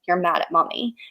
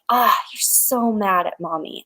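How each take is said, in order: First: The tone is flat, not matching anger. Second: The tone is intense, matching his anger.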